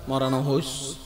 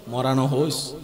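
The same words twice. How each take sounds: The two takes are said the same way.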